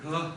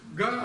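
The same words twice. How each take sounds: First: The consonant falls between k and g, low-pitched. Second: The consonant is a fully voiced, clear g. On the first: The speaker calls it right. "произносится между что-то как среднее между русским «к» и «га», и в то же время произносится низким тоном" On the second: The speaker calls it wrong. "это не «га» русская. «Га», она точно, звонкая"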